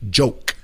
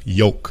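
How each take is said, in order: First: It begins with an English j sound. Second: It begins with a y sound, Spanish-accented.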